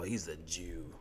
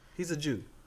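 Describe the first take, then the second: First: It is said in a contemptuous, insulting tone. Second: It is said in a plain, neutral tone. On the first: It is meant as an insult. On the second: It simply states a fact.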